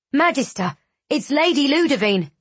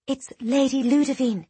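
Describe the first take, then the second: First: High, urgent panicked call. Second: High, hushed gossip; whispered. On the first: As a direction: call out the alarming news in panic. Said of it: "came a panicked voice from the hallway". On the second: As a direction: confide the news in a stage whisper. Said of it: "a young acolyte whispered to her companion". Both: A narrator's reading.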